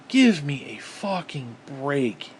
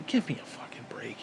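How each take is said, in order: First: Slow, voiced, drawn-out; slow exasperation. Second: Exasperated whisper. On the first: Fed up with hypocrisy, drags it out slowly. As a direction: spell out each word in disgust. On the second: Fed up with hypocrisy, whispers the complaint. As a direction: breathe it out in disgust. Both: Real, not acted.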